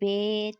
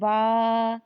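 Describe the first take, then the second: First: The letter name ends in an 'ay' vowel. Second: The letter name ends in an 'ah' vowel. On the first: This is the Urdu way of naming the letter. The speaker calls it wrong. "Urdu तलफ़्फ़ुज़ से परहेज़ करें, यानी बे" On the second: This is the Arabic way of naming the letter. The speaker calls it right. "अरबी लहजा में अदा करें ... जैसे बा"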